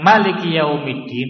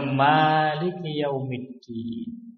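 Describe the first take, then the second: First: The first vowel of Maliki is kept short. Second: The first vowel of Maliki is drawn out long. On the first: It means the king or sovereign. "Kalau dipendekkan" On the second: It means the one who holds authority over all matters on Judgment Day. "Kalau dibaca Maliki Yaumiddin"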